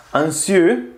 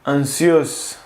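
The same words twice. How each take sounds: First: Anxieux ending on an open vowel, no s; anxieux, rising; French anxieux. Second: Anxieux said with a final z sound; French anxieuse. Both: Shown as a demonstration. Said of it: "y quieres decir ansiosa".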